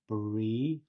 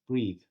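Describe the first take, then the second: First: The word is said slowly and exaggerated. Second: The word is said quickly at natural speed.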